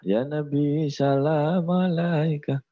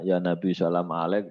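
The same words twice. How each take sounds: First: Slow, full "alaika"; every syllable of "alaika" given fully; correct prayer recitation. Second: Put-on "alek" clipped, child's wrong reading; "alek" in place of "alaika", lightly mocked; mispronounced prayer. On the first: Retold or imitated. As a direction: draw out "Ya Nabi salam alaika" slowly. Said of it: "kata maknya". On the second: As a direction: say "Ya Nabi salam alek" with "alek" cut short. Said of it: "anaknya baca".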